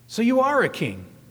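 It is said as a mocking exclamation.

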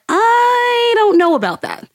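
It is said with audible vocal doubt.

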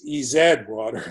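The letter Z is said as zed.

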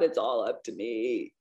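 It sounds weighed down and anxious.

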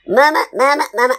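It is said in a happy voice.

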